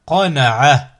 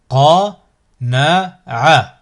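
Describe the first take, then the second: First: Syllables joined as one word. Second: Slow, each syllable drawn out separately; split into syllables. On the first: Teacher models a word for learners to repeat, joined in one go. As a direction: run the syllables together without pauses. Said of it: "ensuite le mot". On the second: Teacher models a word for learners to repeat, split into syllables. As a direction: cut the word up, pausing between syllables. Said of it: "décomposer le mot". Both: Shown as a demonstration.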